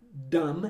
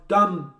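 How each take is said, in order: First: "dumb" ending on m, b silent; correct silent B. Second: "dumb" with the final b popped; wrongly sounded B. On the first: Shown as a demonstration. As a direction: say "dumb" with lips closed on the final m. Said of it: "em vez de falar dumb". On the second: Retold or imitated. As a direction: imitate learners adding a b to "dumb". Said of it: "Eles querem falar aquele B".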